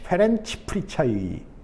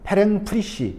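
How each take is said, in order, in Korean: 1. 성씨는 'chai' 소리로 끝납니다. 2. 성씨는 'shi' 소리로 끝납니다. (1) "이렇게 발음해야 되나요?" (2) "그냥 내 멋대로 그 페랭 페랭 프리시 뭐 이렇게 적었던 것 같아요"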